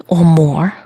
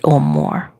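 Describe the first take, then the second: First: Said in the usual way. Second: Dropped much lower, a mock deep read of "or more."; "or more." said low and drawn as if writing it. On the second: Shown as a demonstration. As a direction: drop way down in pitch for "or more.". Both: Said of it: "I might have to write".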